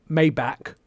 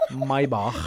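First: "Maybach" as MAY-back; American pronunciation. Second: "Maybach" drawn out as MY-bahkh; correct German pronunciation. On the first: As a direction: say "Maybach" like May plus back, hard k ending. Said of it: "Americans say". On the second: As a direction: say "Maybach" slowly, MY then a throaty German ch. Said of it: "I have to say it right". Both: Shown as a demonstration.

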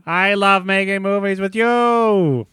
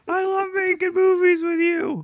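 First: High and slow, drawn out; slow high goofy voice. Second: High goofy voice. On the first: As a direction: savor each word, high and slow. Hank echoes slowly. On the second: Frank voice continues. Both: Acted.

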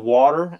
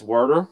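First: Said in the usual way. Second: "worder" with an r in the first syllable; "worder", rhyming with "herder"; regional pronunciation. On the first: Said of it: "instead of water". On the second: Shown as a demonstration. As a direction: say water as "worder". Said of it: "it was worder".

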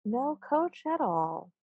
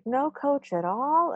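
First: Soft, slow, mock-mournful gnome; sad gnome. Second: High, slow question, rising on "all"; crowd's echoed question. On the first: Chief gnome answering his men, mock-sad and soft. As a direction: lament it in a small high voice. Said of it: "shakes his head very sadly". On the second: Retold or imitated. Gnomes echoing their chief, slow high question on "all". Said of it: "all say".

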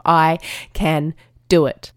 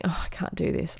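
First: "I can do it" slowly, word by word; deliberate affirmation. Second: Defeated self-talk. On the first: Shown as a demonstration. Listeners at their own hill, deliberate affirmation of "I can do it". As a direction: separate each word of "I can do it" firmly. Models determined self-talk, slow. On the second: Retold or imitated.

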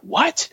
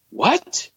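First: Whispered, high rising What?; astounded what. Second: High, incredulous rising What?; astounded what. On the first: Retold or imitated. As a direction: breathe What? in stunned disbelief, voice rising. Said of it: "he's astounded". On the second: Acted. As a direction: throw out What? in shocked disbelief, pitch jumping up. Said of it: "Paul's angry".

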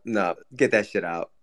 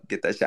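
First: Low mock growl; low put-on voice. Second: Much lower, quieter mock growl on get that shit; deeper put-on growl. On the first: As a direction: growl it like a grossed-out thug. Mock disgust at a bit. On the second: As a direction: push the growl even lower and softer. Repeats bit even lower.

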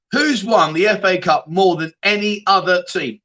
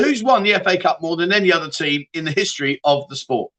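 First: Asked again slowly, each word spelled out; slow deliberate quiz re-ask; slower repeat. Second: Said in the usual way. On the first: Shown as a demonstration. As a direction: repeat the question slower and clearer for the chat. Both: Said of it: "Let me just ask you that one again".

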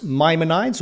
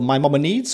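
First: Maimonides as MY-muh-nides; first pronunciation. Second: Maimonides as my-MOM-uh-needs; muddled Maimonides with a long ee at the end; alternative pronunciation. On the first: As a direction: say Maimonides with a long eye in the last syllable. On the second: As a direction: say Maimonides with an extra syllable, ending in "needs". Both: Shown as a demonstration. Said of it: "tell us how to pronounce".

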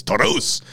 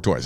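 First: Taurus with a tapped Spanish r, TOH-roos; rolled r. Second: Said in the usual way. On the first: Shown as a demonstration. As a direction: say Taurus with a quick Spanish r flap. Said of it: "It's Taurus". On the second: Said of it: "I mean, like Ford Taurus".

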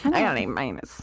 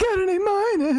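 First: Put-on low sulky teen grumble; grumpy eighth grade voice. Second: Lightly mock-grumpy teen. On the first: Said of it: "in my grumpy eighth grade voice". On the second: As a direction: sulk it like a grumpy eighth grader. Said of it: "my grumpy eighth grade voice".

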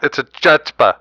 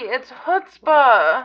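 First: "chutzpah" said with a hard ch like chair; "a chutzpah" with an English ch; wrong pronunciation. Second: "chutzpah" slowly, with a throaty kh and no ch sound; slow "chutzpah", guttural start; correct pronunciation. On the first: Host keeps saying "chutzpah" the wrong way. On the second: Co-host slowly corrects how he says "chutzpah". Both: Shown as a demonstration. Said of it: "there's no C".

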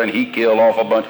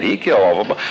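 First: "off" carries the weight, "killed" stays level; a falling statement with "off" held longest; stress on off. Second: "killed" hit hard and rising, "off a bunch" tucked under it; stress on killed. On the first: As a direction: lean on the word "off", let the rest fall away. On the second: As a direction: punch the word "killed", then let it rise. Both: Shown as a demonstration.

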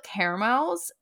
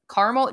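First: "caramels" in three syllables, CARE-uh-melz. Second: "caramel" squeezed to CAR-mul; two-syllable CARAMEL. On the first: Host listing Aldi favorites, "caramels" as CARE-uh-melz. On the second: Host trying the other pronunciation, "caramel" as CAR-mul. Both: Shown as a demonstration. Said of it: "Do you say caramel or caramel".

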